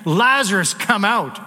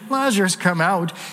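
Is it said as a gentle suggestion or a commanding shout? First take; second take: commanding shout; gentle suggestion. First: It is shouted loudly, like a command. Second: It is said softly, like a gentle suggestion.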